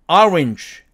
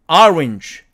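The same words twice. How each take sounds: The two takes are said the same way.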